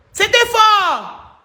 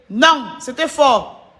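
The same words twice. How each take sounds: First: Drawn-out high exclaim. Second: Said in the usual way. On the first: Real, not acted. Streamer marveling to her fans, slow high exclaim. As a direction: stretch it out slowly, pitched up high. Reacting to the video on live.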